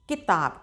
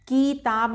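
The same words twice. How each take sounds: First: The first vowel is kept short. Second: The first vowel is drawn out long. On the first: The speaker calls it right. "छोटी ई का उच्चारण कम देर के लिए किया जाता है" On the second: The speaker calls it wrong. "किताब नहीं बोलेंगे"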